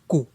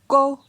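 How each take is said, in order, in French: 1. La syllabe a un ton bas. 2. La syllabe a un ton moyen. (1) "Ton bas" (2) "Ton moyen"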